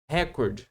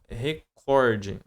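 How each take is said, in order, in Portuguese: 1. A palavra termina em som de consoante. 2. A palavra termina com som de vogal. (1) "ouvido falar muito na televisão" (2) "a palavra é recorde"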